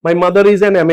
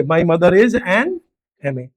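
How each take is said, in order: First: Said in the usual way. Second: Each word drawn out very slowly; slow demo. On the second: Shown as a demonstration. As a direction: spell out "my mother is an M A" word by word. (धीरे-धीरे, हर शब्द खींचकर) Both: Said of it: "English में आप ऐसे बोलोगे".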